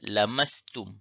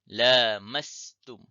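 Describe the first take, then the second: First: The first vowel is short. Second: The first vowel is long. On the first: "Bacaan tanpa alif" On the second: "Bacaan dengan alif"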